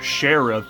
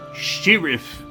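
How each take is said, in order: First: The word is said in an American way. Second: The word is said in a British way. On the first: "It's not sheriff" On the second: "medieval British story, so they don't say words correctly"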